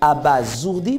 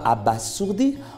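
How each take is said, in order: First: The middle consonant is a buzzing z sound. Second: The middle consonant is a hissing s sound. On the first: The speaker calls it right. "on dira plutôt ... le S entre deux voyelles se lit Z" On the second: The speaker calls it wrong. "On ne dira pas"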